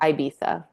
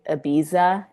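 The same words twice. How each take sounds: First: The first vowel sounds like 'eye'. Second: The first vowel sounds like 'eh'. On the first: This is the way it is said in the UK and Europe. "like an I" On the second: This is the way it is said here. "here we say Ibiza"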